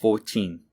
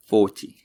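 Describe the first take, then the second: First: "Fourteen" in a tentative British accent, second syllable stressed; amateur British accent, "fourTEEN"; attempted British accent. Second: "Forty" in a tentative British accent, first syllable stressed; amateur British accent, "FORty"; attempted British accent. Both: Shown as a demonstration. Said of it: "I can't really do the British accent, but I'll give it a try".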